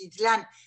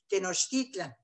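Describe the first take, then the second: First: The stress is on the last syllable. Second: The stress is on the second-to-last syllable. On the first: The speaker calls it wrong. "lo pronunciamos mal ... con el acento sobre la última sílaba" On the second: The speaker calls it right. "debería ser ... el acento cae sobre la penúltima sílaba"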